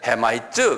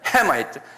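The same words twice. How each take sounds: First: The syllables are said evenly without stress. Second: The first syllable is stressed with a high pitch. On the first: The speaker calls it wrong. "헤마이트 그런 게 아니에요" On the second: The speaker calls it right. "그러니까 도레미파 솔로 올라가요"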